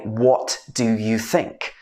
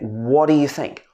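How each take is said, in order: First: Each word is said separately and distinctly. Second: The words run together in one smooth chunk. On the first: The speaker calls it wrong. "So we wouldn't say" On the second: The speaker calls it right. "We would say"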